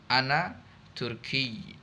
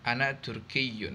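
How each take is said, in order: First: The word ends bare, with no -un ending. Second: The word ends with a full -un ending. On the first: This is the everyday spoken form. "kalau kita sukunkan itu lebih uh, lebih aslam" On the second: This is the full form used when studying. "tidak perlu dibaca Turkiyun"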